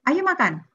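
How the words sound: Said in a warning, forbidding tone. It means the food must not be eaten. "oh tidak boleh dimakan"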